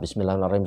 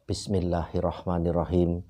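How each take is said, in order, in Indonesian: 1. Dibaca cepat dan terburu-buru. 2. Dibaca pelan dan tenang. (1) "Jangan cepat-cepat. ... Kalau itu dua menit selesai" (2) "Perlahan-lahan, jangan buru-buru, jangan cepat-cepat"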